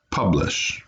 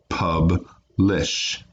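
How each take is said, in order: First: Said in the usual way. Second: "Publish" split as pub, pause, lish; slowly divide "Publish" into two pieces; one syllable at a time. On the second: Shown as a demonstration. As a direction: clear gap in the middle of "Publish". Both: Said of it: "one syllable at a time".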